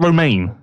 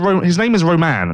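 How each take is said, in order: First: The name ends with a long 'main' sound. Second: The name ends with a short 'man' sound. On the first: The speaker calls it wrong. "not Romaine" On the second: The speaker calls it right. "His name is Roman"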